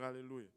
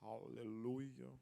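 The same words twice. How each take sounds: First: It is said in a plain, casual way. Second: It is said in a slow, solemn way. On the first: It is an ordinary exclamation. The speaker calls it wrong. "tu ne peux pas juste dire" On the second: It is said with dignity before God. The speaker calls it right. "il faut le faire avec dignité"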